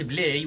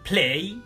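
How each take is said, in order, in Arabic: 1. الصوت الأول هو B مجهور. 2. الصوت الأول هو P مع نفخة هواء. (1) "وما نقولش play" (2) "ونقول play"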